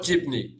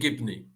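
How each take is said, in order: First: The word begins with a j sound. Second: The word begins with a hard g sound. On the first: "like they say in Syria" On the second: "I said it with uh, the Egyptian accent"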